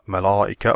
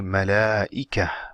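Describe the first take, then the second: First: The L is heavy, with the back tongue raised. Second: The L is light, with no back-tongue raising. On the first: The speaker calls it wrong. "so you don't say" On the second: The speaker calls it right. "You say malaika"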